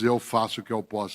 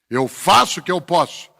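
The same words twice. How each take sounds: First: The voice trails off at the end. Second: The voice rises at the end like a question. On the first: The person is giving up. "a pessoa não diz" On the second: The person questions whether they are doing enough. "ela diz"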